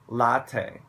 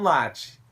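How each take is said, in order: First: The word is pronounced the English way. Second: The word is pronounced the Brazilian Portuguese way. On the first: "a gente vai falar I want a latte. Latte. Assim" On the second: "Mas no Brasil você tem que falar"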